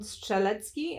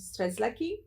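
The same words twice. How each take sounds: First: The name is said with Polish pronunciation. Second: The name is said with Australian English pronunciation. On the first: The speaker calls it right. "whose name nobody can pronounce in Australia" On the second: The speaker calls it wrong. "here they butcher it and call him"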